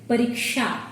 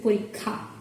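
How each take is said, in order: First: The middle consonant is a 'ksh' cluster. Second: The middle consonant is a plain 'kh' sound. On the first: This is the Hindi pronunciation. "they pronounce it as pariksha" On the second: This is the Bangla pronunciation. "in Bangla... We say porikha"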